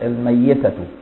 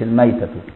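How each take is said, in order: First: The y sound is doubled and held longer. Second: The y sound is short and single. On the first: "قراءة أبو جعفر حرمت عليكم الميتة" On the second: "مش الميتة"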